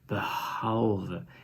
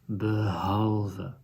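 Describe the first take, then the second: First: The h sound is voiceless. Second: The h sound is voiced. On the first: The speaker calls it wrong. "otherwise we would have said behalve, and that is not how we pronounce it" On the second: The speaker calls it right. "So you add the voice to the"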